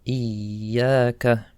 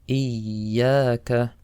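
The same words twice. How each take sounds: No difference in how they are said.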